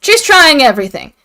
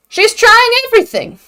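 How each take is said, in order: First: Said in the usual way. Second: "She's trying everything" said again much higher, stress on "trying"; pitched-up repeat of "She's trying everything". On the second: Shown as a demonstration. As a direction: lift "She's trying everything" up high the second time.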